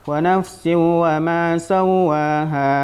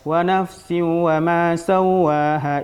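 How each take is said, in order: Both takes have the same delivery.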